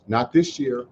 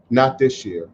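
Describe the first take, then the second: First: This year leaned on, falling and a touch softer; Not THIS year, the word this carrying the weight; stress on THIS. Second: Not pushed first, then year falls away; NOT this year, hit the word not firmly; stress on NOT. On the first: Host telling listeners the bridge won't happen, stress on this. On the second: Host repeating to listeners, stress on not. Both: Real, not acted.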